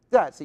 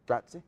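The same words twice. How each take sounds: First: Grazie said higher and louder with an Italian lilt; Italian accent. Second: Said in the usual way. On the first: Shown as a demonstration. Teasing friend to use the accent, Italian Grazie. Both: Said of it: "You gotta use your accent".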